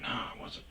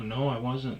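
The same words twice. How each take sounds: First: Soft unvoiced no I wasn't; barely breathed, avoiding his eyes; whispered denial. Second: Said in the usual way. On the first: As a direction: whisper it while looking away. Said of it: "like, looking away". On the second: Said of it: "looking away".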